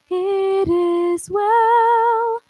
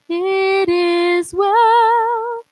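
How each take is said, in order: First: The word it starts with audible breath. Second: The word it starts smoothly and seamlessly.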